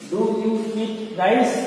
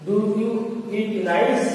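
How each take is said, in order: First: Very slow, each word drawn out for students to write; teacher dictating at a crawl; slow dictation. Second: Said in the usual way. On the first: Shown as a demonstration. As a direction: spell it out slowly so the class can copy Do you eat rice?. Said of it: "teacher dictating to class".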